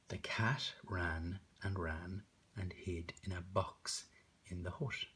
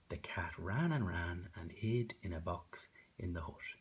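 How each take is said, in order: First: It is read word by word, bouncing. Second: It is read smoothly, sliding between words.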